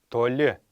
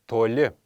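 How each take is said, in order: No difference in how they are said.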